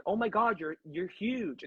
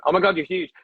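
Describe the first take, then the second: First: Said in the usual way. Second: Loud, shaky attempt at a Kiwi accent; hammed-up New Zealand accent on "huge". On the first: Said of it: "I can't do the accent". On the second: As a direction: have a go at the Kiwi accent, loudly. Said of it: "No, he wasn't American. He was Kiwi. I can't do the accent".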